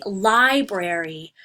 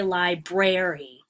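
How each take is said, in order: First: "library" with the first syllable punched; stress on first syllable. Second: "library" wrongly stressed on its middle syllable, li-BRARY; stress on second syllable. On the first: Teacher showing students where the stress falls, first syllable of "library" stressed. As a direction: hit the first beat of "library", the rest lighter. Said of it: "stress is actually on the first syllable". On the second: Teacher showing students the wrong way, "library" stressed on second syllable. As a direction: lean on the "brar" in "library", slowly. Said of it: "It's not on the second one".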